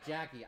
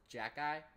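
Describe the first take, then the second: First: The name ends with an 'ee' sound. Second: The name ends with an 'eye' sound. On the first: The speaker calls it wrong. "I thought it was pronounced like like like hockey with a J" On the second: The speaker calls it right. "but it's Jack Guy"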